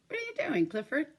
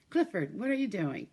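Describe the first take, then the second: First: High surprised call to the dog. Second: Said in the usual way. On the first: Pretend. Calling to the dog again.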